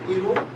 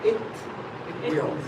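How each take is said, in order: First: The two words merge into one contracted syllable. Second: Both words are said fully with a clear T. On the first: "it's possible to say it'll" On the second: "the third possibility is it will"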